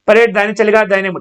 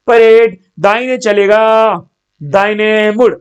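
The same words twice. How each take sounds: First: Both commands run together quickly without a gap. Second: A short pause separates the two commands.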